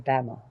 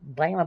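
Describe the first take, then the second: First: It is said in a plain, normal accent. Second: It is said in an exaggerated, wonky accent. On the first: "Normally we'd say Bama" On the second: "I gotta throw in that wonky Alabama"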